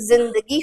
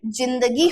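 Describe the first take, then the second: First: जिंदगी with a buzzing z at the start, zindagi; buzzed z. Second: जिंदगी with a hard j at the start, no buzz; plain j. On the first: Teacher asking students which is right, जिंदगी with buzzed z. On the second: Teacher asking students which is right, जिंदगी with plain j. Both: Shown as a demonstration. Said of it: "थोड़ी सी इसमें झनकार पैदा करनी है".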